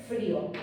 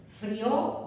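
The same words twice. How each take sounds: First: "frío" in two syllables, FRÍ-o; stress on the Í. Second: "frío" as the verb form, fri-Ó; stress on the O. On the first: Teacher contrasting the word with tilde, stressed Í. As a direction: lean on the í in "frío", let the o fall away. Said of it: "si lleva tilde". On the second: Teacher reading the form of freír without tilde, stress on O. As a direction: glide through the i of "frío" onto the o. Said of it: "Como no lleva tilde". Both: Shown as a demonstration.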